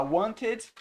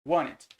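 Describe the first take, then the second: First: Wanted with a clear T, said wan-ted; T sounded. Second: Wanted with the T left out, said wan-ed; dropped T. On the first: Teacher showing the written form wanted with its T. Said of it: "Na hora que você vai pronunciar, mas pra escrever tem que ter o T". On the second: Teacher showing how Wanted sounds when spoken, T dropped. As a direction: say Wanted sliding over the T as wan-et. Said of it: "Na hora que você vai pronunciar". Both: Shown as a demonstration.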